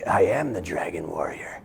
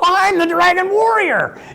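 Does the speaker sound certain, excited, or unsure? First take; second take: certain; excited. First: It sounds calm and certain, like a statement. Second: It sounds eager and enthusiastic, full of excitement.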